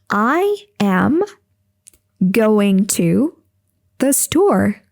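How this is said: It is said in short chunks with pauses.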